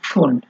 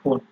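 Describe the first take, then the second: First: The word begins with a p blended into f. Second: The word begins with a plain f sound. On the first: The speaker calls it right. "পিটা যখন থাকবে তখন হবে ফুন্ড, মানে আপনার আহ, একটু চাপ দিয়ে পড়তে হয়" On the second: The speaker calls it wrong. "Normally আমরা যদি ফুন্ড প আহ, উচ্চারণ করি তাহলে হয় ফুন্ড"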